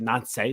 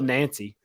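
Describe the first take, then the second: First: The name is said with French pronunciation. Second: The name is said with English pronunciation. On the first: "French, so they say Nancy" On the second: "It's spelled Nancy"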